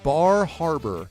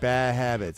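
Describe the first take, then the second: First: The R sounds after the vowels are pronounced. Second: The R sounds after the vowels are dropped. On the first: "is the R. You'd be like Bar Harbor" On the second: "but there's like"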